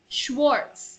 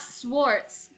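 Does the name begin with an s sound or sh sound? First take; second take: sh sound; s sound. First: The name begins with a sh sound. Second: The name begins with a plain s sound. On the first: The speaker calls it right. "the S C H is pronounced with a sh sound" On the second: The speaker calls it wrong. "not not Swartz"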